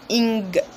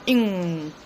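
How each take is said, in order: First: It ends in a nasal plus a hard g. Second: It ends in a nasal with no g. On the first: The speaker calls it wrong. "not ing. We do not have the g sound" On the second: The speaker calls it right. "So you say ing"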